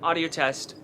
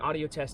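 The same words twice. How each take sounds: First: The voice sounds clear and natural. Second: The voice sounds muffled and less natural. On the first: The speaker calls it right. "the Z V one definitely won that one. It sounds a lot better quality" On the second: The speaker calls it wrong. "blocks the real life sound"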